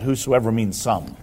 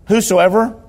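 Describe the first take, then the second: First: "whosoever means some" dropped low and soft, dismissive; mocking whosoever means some. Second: "Whosoever" called out high and loud with a rise; proclaimed whosoever. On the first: Shown as a demonstration. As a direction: sneer it quietly like a pedant. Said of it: "somebody can tell them that". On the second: Real, not acted. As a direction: ring out "Whosoever" to the room. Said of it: "proclaiming the word".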